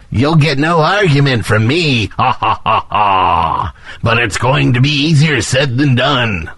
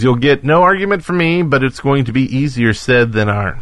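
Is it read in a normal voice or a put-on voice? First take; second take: put-on; normal. First: It is read in a put-on character voice. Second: It is read in his normal voice.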